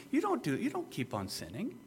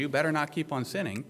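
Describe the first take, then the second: First: Gentle, softly put reassurance; higher, easy reassurance; reassuring statement. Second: Mild scolding command; a touch of finger-wagging; finger-wagging warning. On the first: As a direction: state it softly as a settled fact, voice lifted. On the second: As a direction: say it as a brisk admonishment. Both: Shown as a demonstration. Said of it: "He's not finger wagging to you".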